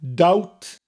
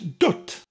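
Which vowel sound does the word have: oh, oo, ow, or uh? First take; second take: ow; uh. First: The vowel sounds like ow. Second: The vowel sounds like uh. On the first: The speaker calls it wrong. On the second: The speaker calls it right.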